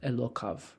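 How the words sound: The word ends with a v sound. "read this third line in my own uh, transla- tra- uh, pronunciation"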